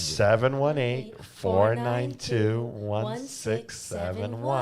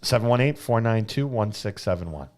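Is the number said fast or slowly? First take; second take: slowly; fast. First: The number is said slowly. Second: The number is said fast.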